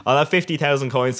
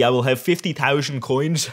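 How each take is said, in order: First: Said in the usual way. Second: Mock Dutch accent. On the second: Vlogger joking about his Dutch team, mock Dutch accent. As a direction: put on a light, jokey Dutch accent. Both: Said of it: "I'll stop the Dutch accent".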